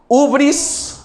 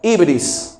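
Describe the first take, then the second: First: The first vowel sounds like 'oo'. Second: The first vowel sounds like 'ee'. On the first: "con H" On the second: "también con H, pero con Y"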